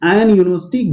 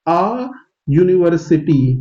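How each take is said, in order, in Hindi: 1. Article 'an' बोला जाता है, अंत में 'n' के साथ। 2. Article 'a' बोला जाता है, बिना 'n' के। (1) "गलत है" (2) "करेक्ट जो होता है"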